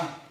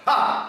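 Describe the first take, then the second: First: The sound is said very softly. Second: The sound is said very loudly. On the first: "Agora baixinho" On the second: "Agora eu vou falar bem alto"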